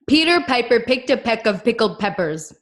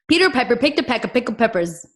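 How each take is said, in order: First: It is said at a moderate pace. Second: It is said a little faster.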